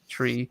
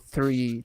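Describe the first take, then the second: First: It starts with a plain t sound. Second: It starts with a careful th sound. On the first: "the way I would normally say tree" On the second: "being really deliberate to go three"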